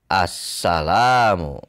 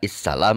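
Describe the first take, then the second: First: The word begins with an a vowel. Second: The word begins with an i vowel. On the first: The speaker calls it right. "Dibacalah assalamu" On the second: The speaker calls it wrong. "Tidak issalam"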